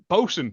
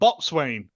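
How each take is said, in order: First: It is said as short, reduced 'bo-sun'. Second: It is said in full as 'boat-swain'. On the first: The speaker calls it right. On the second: The speaker calls it wrong. "not Botswain, as I've heard someone pronounce it"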